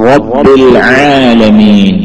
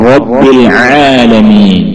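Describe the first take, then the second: No difference in how they are said.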